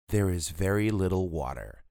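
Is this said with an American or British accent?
American. It is said with an American accent.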